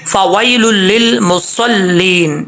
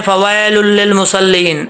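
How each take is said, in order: First: Very slow فویل للمصلین, واو held; correct recitation. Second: فویل للمصلین read slowly, the wrong way; mistaken reading. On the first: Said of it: "آگے چلتے ہیں،". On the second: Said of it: "ایسا نہیں پڑھنا۔". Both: Shown as a demonstration.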